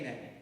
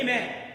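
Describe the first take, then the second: First: It is said with low intensity. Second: It is said with medium intensity.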